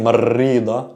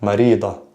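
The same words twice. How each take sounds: First: "marida" with a long rolled R; wrong strong R. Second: "Marida" with one quick tapped R; soft R. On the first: Teacher shows what to avoid, strong trilled R. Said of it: "I'm not saying". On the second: Teacher gives the correct take, soft tapped R. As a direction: tap the R of "Marida" just once. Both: Shown as a demonstration.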